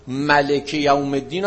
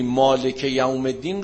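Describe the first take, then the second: First: "ملک" with a short first vowel, malek; short-vowel reading. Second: "مالک" with a long aa, maalek; long-vowel reading. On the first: Teacher shows students the alternative prayer reading, "ملک" as malek. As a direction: say "ملک" as ma-lek, no long aa. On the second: Teacher shows students the first permitted reading, "مالک" as maalek. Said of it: "ملک یوم الدین هم تو نماز بخونی". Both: Shown as a demonstration.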